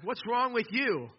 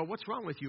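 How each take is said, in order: First: High, slow, indignant demand; emphatic grumbling. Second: Said in the usual way. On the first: Acted. Thirsty follower confronts Moses, emphatic grumbling. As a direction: stretch the question out and pitch it up. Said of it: "You wanna grumble against that".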